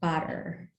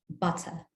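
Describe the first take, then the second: First: It is said in an American pronunciation. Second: It is said in one British pronunciation. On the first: "in a lot of the um, American English varieties, it's pronounced" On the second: "in some varieties of British English, it is pronounced"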